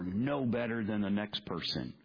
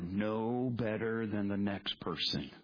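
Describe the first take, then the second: First: It is said in a forceful, pointed way. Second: It is said in a flat, detached way. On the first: The point is aimed directly at the listener. "Did that make you a little uncomfortable when I said it that way?" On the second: The point is stated neutrally about others. "I said that very sterile-like"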